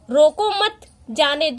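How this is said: There is a pause after 'mat'.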